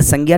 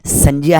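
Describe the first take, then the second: First: "संज्ञा" said as "sangya"; "संज्ञा" with g in the middle, as commonly said; wrong pronunciation. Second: "संज्ञा" said as "sanjya"; "संज्ञा" with j in place of g; correct pronunciation. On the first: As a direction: say "संज्ञा" with a hard g plus y. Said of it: "ये संज्ञा नहीं है". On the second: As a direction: say "संज्ञा" with a j-y glide. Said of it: "ये क्या है?". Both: Shown as a demonstration.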